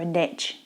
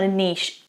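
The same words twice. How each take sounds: First: Niche is said with an American accent. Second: Niche is said with a British accent.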